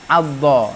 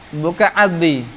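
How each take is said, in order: First: The word ends with an 'a' vowel. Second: The word ends with an 'i' vowel. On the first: The speaker calls it right. "Dibaca adha. ... baris atas" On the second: The speaker calls it wrong.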